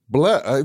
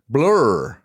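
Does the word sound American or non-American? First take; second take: non-American; American. First: The word sounds non-American, close to blah. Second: The word sounds strongly American. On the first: "It sounds like I'm just saying blah" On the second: "That's very American"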